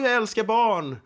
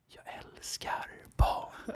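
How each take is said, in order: First: It is said in a normal, cheerful voice. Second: It is said in a whisper. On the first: A sincere, friendly remark. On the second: The remark sounds creepy and disgusting.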